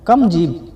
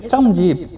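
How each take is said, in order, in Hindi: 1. पहला शब्द k ध्वनि से शुरू होता है। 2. पहला शब्द ch ध्वनि से शुरू होता है। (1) "इसे अरबिक में बोलाता है कम जीब" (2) "या फिर बोलेंगे चम जीब"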